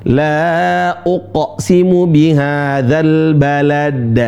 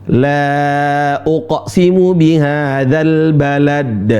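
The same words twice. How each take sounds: No difference in how they are said.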